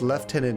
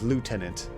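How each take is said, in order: First: It is said the British way, like 'leftenant'. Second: It is said the American way, like 'lootenant'. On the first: "how it's traditionally said in England" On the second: "It's like an American traditional way"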